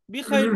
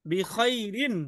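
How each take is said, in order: First: "বি খাইর" ending on the r, no -in; short pausal ending. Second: "বি খাইরিন" slowly, with the -in sounded; a slow teacher's model of "বি খাইরিন", ending in full. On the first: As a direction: drop the -in and stop on r in "বি খাইর". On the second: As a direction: draw out "বি খাইরিন" through its final -in. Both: Shown as a demonstration. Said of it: "বি খাইর বললে হবে শুধু".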